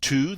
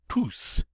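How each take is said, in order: First: The word ends without an S sound. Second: The word ends with an audible S sound. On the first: This is the usual form of the word. "normally, this word is pronounced tu. The S is silent" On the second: This is the form used after a preposition. "when it follows a preposition like this, we get to pronounce the S"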